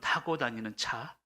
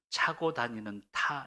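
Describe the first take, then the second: First: The first word begins with 'ta', ending with 'cha'. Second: The first word begins with 'cha', ending with 'ta'. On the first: The speaker calls it right. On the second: The speaker calls it wrong.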